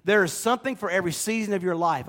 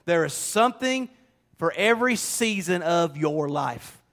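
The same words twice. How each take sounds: First: Said in the usual way. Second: "There is SOMETHING for every season", leaning on "something"; stress on something. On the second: Shown as a demonstration. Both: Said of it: "I want you to hear this".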